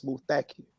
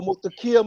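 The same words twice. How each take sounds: First: Muthakir with the accent on THA; stress on second syllable. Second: Put-on Muthakir fumbled, accent off the second syllable; murdered pronunciation. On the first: Shown as a demonstration. Brother relaying the correction, Muthakir stressed on its second syllable. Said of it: "the accent is on the second syllable". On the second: Newly named man answering the minister, Muthakir mispronounced. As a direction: say Muthakir high, missing the THA stress. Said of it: "I didn't know how to say it".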